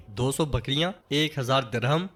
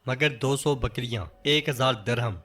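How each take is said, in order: First: A mild hint of disbelief, interrupting; mildly surprised echo. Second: Said in the usual way. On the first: A narrator's reading. Osman echoing Bala's dowry demand, mild surprised rising question. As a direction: repeat "دو سو بکریاں، ایک ہزار درہم" as a rising question. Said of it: "انہیں ٹوکتے ہوئے کہتے ہیں". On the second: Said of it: "بالا خاتون کہتی ہیں".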